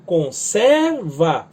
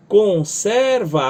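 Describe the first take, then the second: First: "conserva" slow, with the weight on "ser"; stress middle syllable. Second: "conserva" stretched over three notes, stress on ser; sing-speak "conserva" slowly, with the middle syllable strong. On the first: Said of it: "a acentuação está na sílaba do meio". (conSERva, lento, acento no meio) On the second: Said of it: "a palavra tá subdividida em três". (conserva lento, sílaba do meio forte) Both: Shown as a demonstration.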